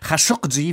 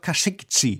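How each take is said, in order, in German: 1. Der Name wird auf arabische Art ausgesprochen. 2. Der Name wird auf türkische Art ausgesprochen. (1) "wie die Araber ihn aussprechen" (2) "die Türken sagen und schreiben heute immer noch Khashoggi"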